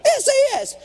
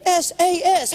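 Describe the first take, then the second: First: S A S much higher and louder; exasperated S A S, much higher, louder; exasperated shout. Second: Higher, louder spelled-out initials; exasperated S A S, higher and louder. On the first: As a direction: shout the initials in frustration. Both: Real, not acted. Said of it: "How hard are three initials?".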